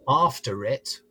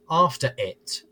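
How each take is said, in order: First: An R sound links the two words. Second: A glottal stop separates the two words. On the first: "where you have the linking R" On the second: "they will use a glottal stop instead"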